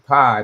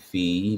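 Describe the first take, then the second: First: The word rhymes with eye. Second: The word rhymes with see. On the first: "I would always say pi" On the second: "that's got to be fee"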